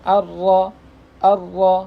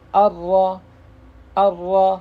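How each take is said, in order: The two takes are said the same way.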